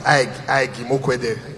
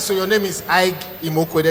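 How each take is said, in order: First: Slow, repeating Ike like a light stammer; mock stammer. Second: Said in the usual way. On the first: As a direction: stumble gently on Ike, Ike. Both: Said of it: "the stammer is so bad".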